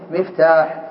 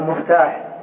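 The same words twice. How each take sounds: First: The first syllable has a non-u vowel. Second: The first syllable has an u vowel. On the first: The speaker calls it right. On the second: The speaker calls it wrong.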